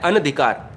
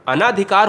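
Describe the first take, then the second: First: "अनधिकार" with a short a after न; शुद्ध रूप अनधिकार. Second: "अनाधिकार" with a long आ after न; गलत रूप अनाधिकार. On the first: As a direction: say "अनधिकार", न kept short before धि. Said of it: "तो ये सही है". ("अनधिकार" में न छोटा) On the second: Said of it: "ये गलत है". ("अनाधिकार" में ना लंबा) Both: Shown as a demonstration.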